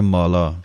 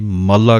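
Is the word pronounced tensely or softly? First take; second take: softly; tensely. First: The word is pronounced softly and loosely. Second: The word is pronounced tensely and forcefully. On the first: The speaker calls it right. "ਪੋਲਾ ਜਿਹਾ ਉਚਾਰਨ ਹੈ" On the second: The speaker calls it wrong. "ਕਈ ਮਾਲਾ ਕਹਿ ਜਾਂਦੇ ਹਨ ਕੱਸ ਕੇ, ਸੋ ਉਹ ਗਲਤ ਹੈ"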